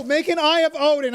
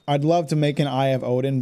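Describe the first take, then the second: First: Mocking yell. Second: "make an Eye of Odin" said in level, dry sarcasm; deadpan, mock-keen offer. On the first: Player mimicking the game's nag, mocking yell. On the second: Player to the game's nagging prompt, dry sarcasm. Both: Real, not acted.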